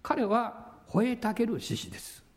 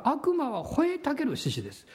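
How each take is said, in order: First: Said in the usual way. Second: 吠えたける lifted and leaned on; preacher hitting 吠えたける harder; stress on 吠えたける. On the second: Shown as a demonstration. Preacher to congregation, stressing 吠えたける.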